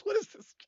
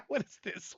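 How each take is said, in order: First: Surprised whispered question. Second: Said in the usual way. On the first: Real, not acted. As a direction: whisper it in disbelief. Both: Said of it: "Todd finally snaps? What is this?".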